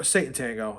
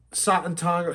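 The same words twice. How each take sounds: First: "Satan Tango" as SAY-tun TANG-go; plain English vowels, SAY in "Satan", TANG in "Tango"; English reading of Satan. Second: "Satan Tango" as SAH-tun TAHN-go; foreign-style pronunciation. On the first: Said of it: "I'm just gonna call it Satan Tango". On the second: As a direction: open AH vowels in "Satan Tango". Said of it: "how do you pronounce this". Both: Shown as a demonstration.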